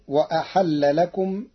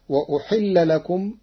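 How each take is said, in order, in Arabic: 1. الفعل يبدأ بـ'a' والحاء تأخذ 'a'. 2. الفعل يبدأ بـ'u' والحاء تأخذ 'i'.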